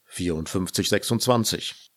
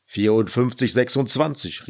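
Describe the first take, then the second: First: Said in the usual way. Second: Louder, irritated repeat of the number. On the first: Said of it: "Wie sagst du, war die Nummer?". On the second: A narrator's reading. Friend asked yet once more for his number, irritated. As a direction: call the number out, out of patience. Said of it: "rief Fjodor gereizt".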